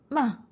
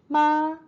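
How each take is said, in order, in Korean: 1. 음높이가 높은 곳에서 급하게 떨어집니다. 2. 음높이가 높고 평평하게 유지됩니다.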